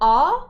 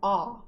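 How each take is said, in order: First: A plain open vowel made in the mouth. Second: The vowel is squeezed from deep in the throat. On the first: "It sounds like ah" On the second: "you move where the sound is coming from further down your throat"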